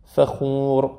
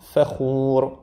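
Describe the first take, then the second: First: فخور with the ف kept light, not heavy; فخور, quick shift from a light ف to the خ. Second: فخور with the mouth moving fast from ف to خ; فخور, light ف and a swift move to the خ; quick mouth shift. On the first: Teacher warning students not to make the F heavy. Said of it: "تفخیم نگیره". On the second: Teacher repeating فخور with a fast mouth shift. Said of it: "مخرج دهان تغییر کنه". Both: Shown as a demonstration.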